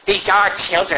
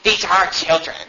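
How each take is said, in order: First: It is read in the speaker's normal voice. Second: It is said in a mocking put-on voice.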